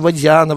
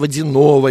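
First: The stress falls on the 'ya' syllable. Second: The stress falls on another syllable. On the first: This is how others mispronounced the surname. The speaker calls it wrong. "ее стали ударить на «я»" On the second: This is the surname's original pronunciation. The speaker calls it right. "я не Водянова, я Водянова"

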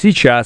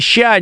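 First: The word is said fully with both syllables. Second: The word is clipped to one short syllable. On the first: The speaker calls it right. "надо говорить сейчас" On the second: The speaker calls it wrong. "ща неправильно говорить"

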